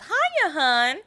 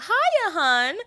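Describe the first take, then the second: First: High, loud brassy housewife chirp; fifties housewife voice. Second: High, loud chirpy housewife greeting; Agatha's housewife greeting. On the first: Shown as a demonstration. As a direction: greet like a gum-smacking floozy. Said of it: "I wish I could sound like a nineteen fifties housewife". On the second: Retold or imitated. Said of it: "And I love".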